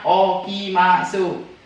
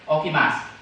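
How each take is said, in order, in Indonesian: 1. Vokal u di akhir diucapkan dengan jelas. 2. Vokal u di akhir dihilangkan. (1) "Tulisannya okimasu" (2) "tapi dibacanya okimas"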